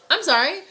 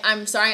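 First: Blurted, high and loud, suddenly embarrassed; a quick startled "I'm sorry" rising at the end; flustered apology. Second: Said in the usual way. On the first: Pretend. Realizing they just said something mean, blurting an apology. Gossiper catches themself mid-sentence.

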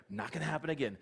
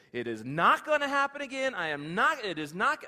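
First: Said in the usual way. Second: Raised, higher, emphatic self-promise; fierce vow to never slip again; loud vow. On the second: Acted. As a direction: shout the promise to yourself. Peter vowing after first denial.

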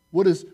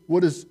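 The two takes are said the same way.

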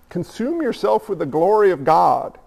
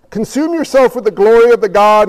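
First: Said in the usual way. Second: Louder restating with a push on yourself; emphatic repeat. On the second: Shown as a demonstration. Preacher repeating his call to the congregation, louder and emphatic. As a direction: drive it home the second time, louder.

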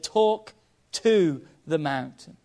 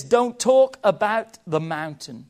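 First: Slow, with "to" punched in "Talk to the mountain"; stress on to. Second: "talk" hit hard, slow, "about the mountain" falling away; stress on talk about. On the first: Preacher quoting Jesus, contrast on "to", slow and firm. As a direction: land slowly and firmly on "to". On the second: Preacher contrasting talking about with talking to, "talk" stressed. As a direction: lean slowly on "talk" then let "about the mountain" drop. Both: Shown as a demonstration.

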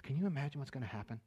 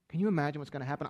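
First: Hushed wonder. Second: Said in the usual way. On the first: Acted.

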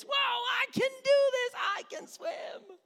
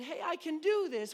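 First: Very high shouted squeal of triumph; hammed-up, over-the-top childish elation; mock triumphant child. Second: Put-on higher, child's growing excitement; acted kid perking up; dawning confidence. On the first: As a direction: shriek like a kid swimming for the first time. Child thrilled to be swimming. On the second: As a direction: discover mid-stroke that it's working. Child realising they can swim.

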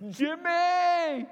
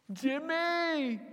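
First: Loud, high desperate call; shouting a name. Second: Calling out. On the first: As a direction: yell for help across the boat. Calling louder, no answer. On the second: Calling out in the night. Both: Retold or imitated.

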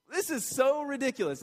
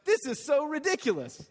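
First: Softer scoff. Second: Exasperated Peter. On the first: Preacher repeating Peter's dismissal to the crowd, gentler scoff. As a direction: repeat it higher but a bit gentler, dismissive. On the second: Preacher voicing Peter waving off the mockers, higher scoffing. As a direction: throw it off like it's laughable. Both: Retold or imitated. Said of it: "his point is, like".

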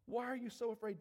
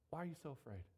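First: Firmer, raised challenge; insistent question. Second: Low, soft voice of Jesus; quiet question. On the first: Jesus pressing the frightened disciples, insistently. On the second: Jesus to the disciples after the storm, quietly. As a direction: ask it gently, pitched down. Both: Acted.

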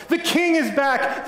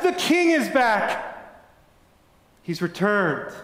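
First: High, slow, ringing cry of joy; joyful shout. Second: High, very slow cry of joy; joyful shout. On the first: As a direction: announce the king's return to everyone. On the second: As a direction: draw out the news in wonder. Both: A narrator's reading. People rushing out of castle.

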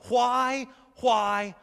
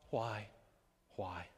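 First: Loud, insistent WHY, higher and forceful; loud anguished "why"; crying out. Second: WHY sunk low and soft; low, spent "why"; despairing fade. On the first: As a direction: cry WHY out to God at full voice. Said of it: "Maybe you've cried out". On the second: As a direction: let each WHY fall away, quiet and defeated. Cry to God dying away. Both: Acted.

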